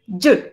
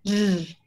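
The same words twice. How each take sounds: First: The consonant is short, dry and explosive. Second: The consonant is long, voiced and less explosive. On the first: "La Y nuestra es Y, es un sonido seco" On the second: "Es más larga, más cantadita"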